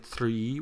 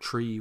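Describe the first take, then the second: First: The word begins with a soft 'th' sound. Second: The word begins with a hard 't' sound. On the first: The speaker calls it right. "with your tongue behind your teeth" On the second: The speaker calls it wrong. "instead of tree"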